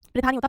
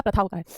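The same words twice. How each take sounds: First: प्रथा as "pritha"; short i after pr in प्रथा; wrong pronunciation. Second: प्रथा as "pratha"; short a after pr in प्रथा; correct pronunciation. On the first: (गलत उच्चारण, प्रथा को प्रिथा बोलें) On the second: (सही उच्चारण, प्रथा में प्र के बाद अ) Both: Shown as a demonstration.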